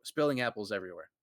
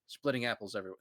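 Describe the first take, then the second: First: Fast corrected read, spilling stressed; speedy self-correction; quick correction. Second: Said in the usual way. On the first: Real, not acted. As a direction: rattle off the fixed word spilling.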